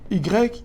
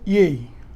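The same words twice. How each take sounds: First: The letter is named with its French sound. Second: The letter is named with its Dutch sound.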